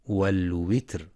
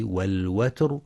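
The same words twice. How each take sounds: First: والوتر with i on the waw, wal-witr; wrong kasra. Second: والوتر with a on the waw, wal-watr; correct fatha on waw. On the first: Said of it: "فلا يقرأ ... بالكسر". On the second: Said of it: "لفتح الواو". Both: Shown as a demonstration.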